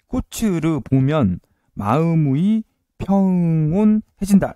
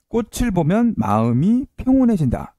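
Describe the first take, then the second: First: It is said in a Japanese-style accent. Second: It is said in a native Korean accent.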